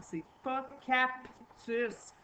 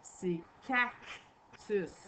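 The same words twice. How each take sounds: First: "cactus" said the wrong way, slowly; the mistaken "cactus", slowed down; wrong pronunciation. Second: "cactus" slowly with a clear C in the middle; the correct "cactus", drawn out; correct pronunciation. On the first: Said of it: "c'est pas comme ça que ça se dit". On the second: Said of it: "C'est la lettre C qu'il y a dans le milieu du mot". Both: Shown as a demonstration.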